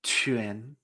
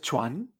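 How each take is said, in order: First: QUAN as "chü-en", low and rising; correct pronunciation. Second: CHUAN with w glide and open a; wrong pronunciation. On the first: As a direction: say QUAN softly with e, in rising second tone. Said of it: "sino que es". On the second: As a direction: say CHUAN as Spanish "chuan". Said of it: "no es chuan". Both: Shown as a demonstration.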